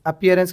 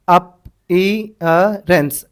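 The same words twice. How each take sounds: First: Said in the usual way. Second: appearance very slowly, piece by piece; sounded out. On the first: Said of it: "appearance बोल के लिख लेना". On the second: Shown as a demonstration. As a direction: break appearance into separate drawn-out sounds. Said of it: "appearance कैसा दिख रहा है".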